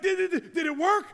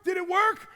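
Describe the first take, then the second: First: Louder, higher eager asking; a brain desperate to know it worked; anxious excitement. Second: Higher and louder, pushing harder; louder, more urgent repeat. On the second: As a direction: demand to know it worked, louder. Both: Retold or imitated. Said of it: "your brain is like".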